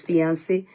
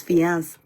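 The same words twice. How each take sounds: First: "fiance" ending in an extra "say" syllable; female form of fiance. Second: "fiance" cut to two syllables, fee-ans; male form of fiance. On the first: Explaining the word for a woman, "fiance" ending in "say". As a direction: say "fiance" as three syllables, fee-an-say. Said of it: "female is fiance". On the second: Explaining the word for a man, "fiance" ending on s. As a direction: end "fiance" on the s, no final vowel. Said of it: "male is fiance". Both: Shown as a demonstration.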